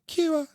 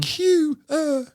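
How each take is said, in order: First: Put-on squeaky high child answer; proud little kid, pitched high. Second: Put-on squeaky high child voice; high kid voice. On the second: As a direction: say it like a proud little kid. Same word again, high voice.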